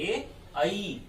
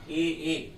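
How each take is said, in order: First: The second vowel sounds like 'ai', more open. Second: Both vowels sound the same, like 'e'. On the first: The speaker calls it right. "इनका उच्चारण इस प्रकार से होता है ए आई" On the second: The speaker calls it wrong. "हम इसका जो उच्चारण करते हैं दोनों का ए ए, जो कि बिल्कुल गलत है"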